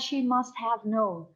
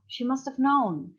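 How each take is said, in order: First: Each word of 'must have' is said separately and fully. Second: 'Must have' is run together into one reduced form. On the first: The speaker calls it wrong. "you would never say" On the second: The speaker calls it right. "It's all like it's attached"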